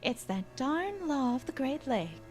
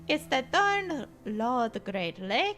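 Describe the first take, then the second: First: It is said in the speaker's ordinary accent. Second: It is said in a put-on Russian accent.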